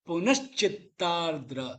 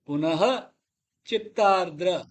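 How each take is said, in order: First: The words join with a 'sh' sound. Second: The words stay apart with an 'ha' ending. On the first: The speaker calls it right. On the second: The speaker calls it wrong.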